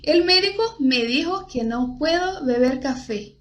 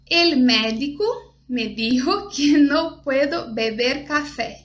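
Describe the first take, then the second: First: It has a closed e, Spanish-style. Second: It has an open e, Portuguese-style. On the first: The speaker calls it right. "é um e fechado" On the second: The speaker calls it wrong. "como a gente leria em, em português, com som mais de português"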